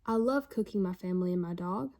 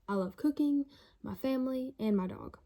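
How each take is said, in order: First: It runs straight through with no pauses. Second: There are pauses after 'cooking' and 'family'. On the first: The family and dog are being cooked. "The first one is saying that you love cooking your family" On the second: Three separate things are loved. "the second sentence says you love cooking, you love your family"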